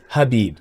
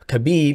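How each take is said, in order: First: The name begins with an H sound. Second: The name begins with a K sound.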